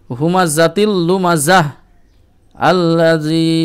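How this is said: There is a stop before the last word.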